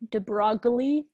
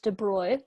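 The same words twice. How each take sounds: First: The name is read out as it is spelled. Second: The name is said unlike its spelling. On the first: "I know it looks like de Broglie" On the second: "but I believe it's pronounced de Broglie"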